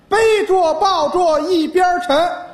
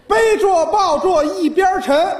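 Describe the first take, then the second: The two takes are said the same way.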